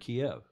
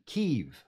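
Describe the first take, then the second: First: The name is said the older, traditional way. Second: The name is said the newer, newscast way. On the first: This is how it was always said before. "We'd always pronounce it Kiev" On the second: This is how newscasters now say it. "now we see the newscasters are all saying"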